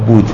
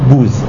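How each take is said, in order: First: The final consonant is a d sound. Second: The final consonant is a z sound. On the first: This is the modern pronunciation. "نمی گفتن بود" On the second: This is the old Persian pronunciation. "می گفتن بوز"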